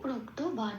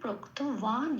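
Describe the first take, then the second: First: The consonant is said as a b sound. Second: The consonant is said as a w sound. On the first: "এটা আমি বাংলায় বললাম।" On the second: "সেই জন্য এটাকে বলবো ওয়া।"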